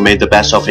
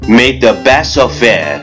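First: It is spoken very fast, in one breath. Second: It is spoken at a moderate pace.

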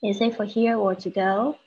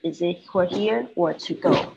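First: The voice rises at the end. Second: The voice falls at the end.

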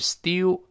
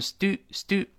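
First: There is a y glide after the t. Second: There is no y glide after the t. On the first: "英式发音是stew" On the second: "美音中把ye 去掉"

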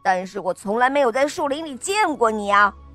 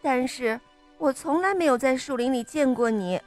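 First: It is said in a fierce tone. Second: It is said in a suspicious tone.

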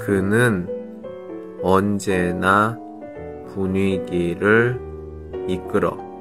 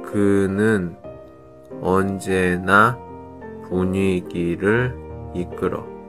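No difference in how they are said.

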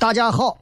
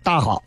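First: All three syllables are pronounced in full. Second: The middle syllable is swallowed, Beijing style.

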